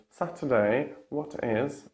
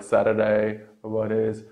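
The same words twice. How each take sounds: First: British "Saturday, what is", T's crisply released; British accent with clear T's; British true T. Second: American "Saturday, what is", T's as quick D's; American accent, flapped T's. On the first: Teacher contrasts the British way, true T. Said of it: "And in British". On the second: Teacher contrasts the American way, flap T. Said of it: "only in American". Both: Shown as a demonstration.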